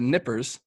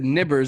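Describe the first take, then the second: First: The middle consonant is a voiceless p sound. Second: The middle consonant is a voiced b sound. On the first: The speaker calls it right. "they're nippers" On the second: The speaker calls it wrong. "I said nibbers instead of nippers"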